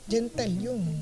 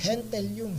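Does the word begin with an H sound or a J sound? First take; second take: J sound; H sound. First: The word begins with a J sound. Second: The word begins with an H sound. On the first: The speaker calls it wrong. "It's not gentilium" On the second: The speaker calls it right. "G is pronounced as he"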